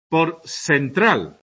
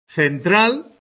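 First: Central said with an s sound, sentral, slowly; slow Andalusian seseo on central, s not th. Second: Central said with a clear theta, /θentɾal/, as standard; seseo demo. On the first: Teacher showing students Andalusian seseo, slow demo. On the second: Teacher demonstrating standard Central to the class, plain. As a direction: standard Castilian Central with th sound. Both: Shown as a demonstration. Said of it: "el seseo es pronunciar ce, ci como ese".

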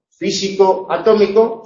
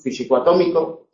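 First: FÍSICO, ATÓMICO as two stressed words, higher pitched; both accents kept. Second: "físico atómico" run together with main stress on ATÓMICO. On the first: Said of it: "conservamos los dos acentos". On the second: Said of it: "es el acento de atómico el principal". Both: Shown as a demonstration.

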